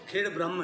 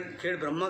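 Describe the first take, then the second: First: "ब्रह्म" ending short on the m, with no vowel after it; "Khed ब्रह्म" with a short a and a clipped final m; correct pronunciation. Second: "ब्रह्मा" said with a long final aa, as some people say it; variant pronunciation. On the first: Lecturer gives the village's correct name: "ब्रह्म" with a short vowel and a closed m. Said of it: "इसका नाम तो खेड़ ब्रह्म है". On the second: Lecturer quotes how some people name the village: "ब्रह्मा" with a long final vowel. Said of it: "कुछ लोग खेड़ ब्रह्मा कहते हैं". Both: Shown as a demonstration.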